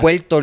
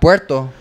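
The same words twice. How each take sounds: First: The R sound is replaced by an L sound. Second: The word is said with an R sound. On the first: "they pronounce it as a L" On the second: "not Puerto with the R"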